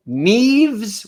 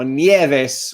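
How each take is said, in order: First: Neves drawn out slowly as "neevz"; long-E pronunciation. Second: Nieves as "nyeh-vess"; Spanish pronunciation. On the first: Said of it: "with long E's". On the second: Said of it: "like a Spanish word to me". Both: Shown as a demonstration.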